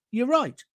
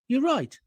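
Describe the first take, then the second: No difference in how they are said.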